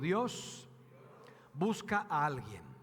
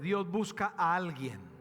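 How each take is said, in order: First: It is said at normal volume. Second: It is said louder.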